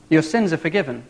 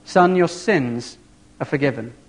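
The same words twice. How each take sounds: First: Said in the usual way. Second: Slow tender blessing. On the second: Retold or imitated. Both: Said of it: "and he says".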